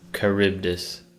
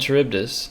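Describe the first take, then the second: First: The word begins with a 'k' sound. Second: The word begins with a 'ch' sound. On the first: The speaker calls it right. "It's K, not Ch" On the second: The speaker calls it wrong. "Am I even saying that right?"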